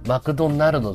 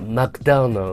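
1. 名前は日本語のカタカナの音で言います。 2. 名前は英語のような音で言います。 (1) "じゃなくて" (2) "って言わないといけない"

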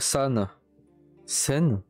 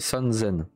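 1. Le deuxième mot commence par un son s. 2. Le deuxième mot commence par un son z. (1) "tu dis pas" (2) "c'est san zen"

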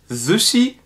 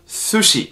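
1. Das erste s ist weich und stimmhaft, wie z. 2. Das erste s ist scharf und stimmlos, zischend. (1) "Nicht Sushi" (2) "sondern Sushi"

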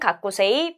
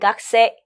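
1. 모든 음절을 다 발음하고, 끝소리를 길게 냅니다. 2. 가운데 모음은 빠지고, 끝소리는 짧아집니다. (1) "쓸 때는 가꾸세이" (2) "발음은 각세"

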